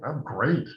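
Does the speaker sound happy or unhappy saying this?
happy. The tone sounds happy and sincere. The speaker really is doing well. "My life is amazing"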